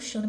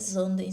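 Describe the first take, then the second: First: The name begins with a sh sound. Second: The name begins with a z sound. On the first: This is how the speaker read it throughout the book. The speaker calls it wrong. "eu falo Xanden" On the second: This is probably the intended pronunciation. The speaker calls it right. "eu acho que a pronúncia é Zanden"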